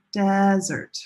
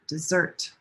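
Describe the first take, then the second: First: "desert" with a long, held "DES"; first-syllable stress. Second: "dessert" with weak "de", strong "SSERT"; second-syllable stress. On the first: Teacher leading repeat-after-me, long first-syllable stress on "desert". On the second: Teacher contrasting two words, second-syllable stress on "dessert". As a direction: hit the last syllable of "dessert". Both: Shown as a demonstration. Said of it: "one syllable is longer".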